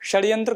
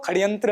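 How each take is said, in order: First: The first consonant is a retroflex sh sound. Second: The first consonant is a kh sound. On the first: The speaker calls it right. "मूर्धन्य शकार" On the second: The speaker calls it wrong. "खकार की ध्वनि लेकर उच्चारण करते हैं"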